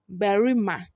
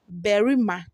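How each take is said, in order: Both takes have the same delivery.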